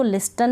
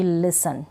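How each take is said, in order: First: "लिस्टन" with the T sounded; mispronounced "लिस्टन", T after the S; wrong pronunciation. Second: "लिसन" with a silent T; correct pronunciation. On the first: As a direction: put a hard T in "लिस्टन". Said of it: "लिस्टन नहीं पढ़ूंगी". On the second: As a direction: leave the T out of "लिसन". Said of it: "टी यहाँ पढ़ा ही नहीं". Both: Shown as a demonstration.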